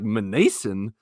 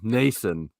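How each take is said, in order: First: The name begins with a sounded M. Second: The name begins with an N sound.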